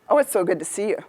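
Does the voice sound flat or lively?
flat. It is flat, quiet and without pitch changes. The speaker is not really engaged.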